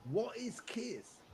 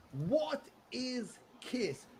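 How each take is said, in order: First: Slow, baffled mock query; puzzled question. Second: Higher, very slow baffled echo; drawn-out puzzled question. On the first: UK schoolkids asking about his Kiss patch, baffled. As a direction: play a confused schoolkid asking. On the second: Retold or imitated. Schoolkid repeating the question, higher and even more baffled. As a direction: stretch it out in mock disbelief.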